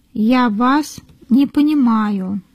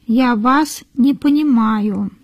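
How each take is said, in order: Both takes have the same delivery.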